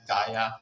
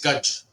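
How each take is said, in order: First: The name ends with an open vowel sound. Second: The name ends with a consonant sound. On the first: This is how it is said in America. "in America we pronounce it as Gaia" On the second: This is the original word. "the word is Gaj"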